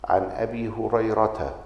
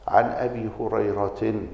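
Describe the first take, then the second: First: The name ends in a plain 'a' vowel. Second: The name ends in an 'in' sound. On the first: The name is treated as not taking nunation. "فالجمهور على أنها ممنوعة من الصرف، ولذلك تكسر بالفتحة" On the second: The name is treated as taking nunation. "كان يرى صرفها"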